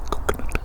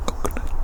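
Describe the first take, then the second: No difference in how they are said.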